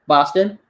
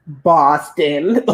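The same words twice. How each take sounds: First: Said in the usual way. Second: "Boston" drawn out slowly; puzzled repeated answer. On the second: Retold or imitated. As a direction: stretch "Boston" as if the answer were obvious. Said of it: "I'm not trying to give her attitude".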